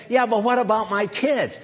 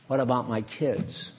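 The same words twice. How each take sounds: First: Lightly acted protest to the boss; mildly protesting, imitating a doubter; mock objection. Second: Low, soft mother's objection; understated, lowered voice of concern; subdued worried question. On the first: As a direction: push back with an acted 'yeah, but'. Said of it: "you don't have to say". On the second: Acted. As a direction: ask it low and quietly, as an acted worry. Voices worried mother answering God.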